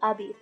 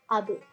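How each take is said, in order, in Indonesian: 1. b dilepas memantul menjadi vokal i. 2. b dilepas memantul menjadi peyem yang pendek. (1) "atau abi" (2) "mantulnya harus ke e suaranya"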